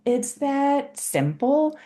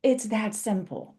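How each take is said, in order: First: Slow, higher "It's that simple" with a lift on "simple"; emphatic repeat. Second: Said in the usual way. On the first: Shown as a demonstration. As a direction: stretch out "It's that simple" and let "simple" rise.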